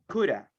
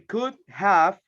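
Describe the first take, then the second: First: The word 'have' is reduced to 'a'. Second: The word 'have' is pronounced in full. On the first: "or I can say coulda" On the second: "I could say could have"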